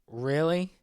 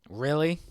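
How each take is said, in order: No difference in how they are said.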